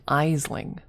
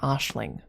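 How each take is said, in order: First: The name begins with an 'eye' sound. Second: The name begins with an 'ash' sound. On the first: The speaker calls it wrong. "They would read it Isling" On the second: The speaker calls it right. "The actual name would be pronounced Ashlyn or Ashling"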